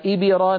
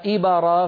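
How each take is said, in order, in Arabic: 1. الباء تميل نحو الكسرة القصيرة. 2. الباء تميل نحو الفتحة القصيرة. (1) "جعلنا الباء شبه مكسورة" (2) "فنكون قد ميلناها إلى الفتح"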